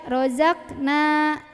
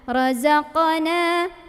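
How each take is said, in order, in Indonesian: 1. Bunyi q dipotong pendek tanpa pantulan. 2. Bunyi q berakhir dengan pantulan yang terdengar. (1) "Jangan sampai cuma dibaca razaqna"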